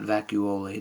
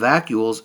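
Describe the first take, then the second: First: It is pronounced like an Italian pasta name. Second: It is pronounced the ordinary English way. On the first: The speaker calls it wrong. "Not vacuole, don't say that. It's not some pasta dish" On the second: The speaker calls it right. "This is the vacuoles"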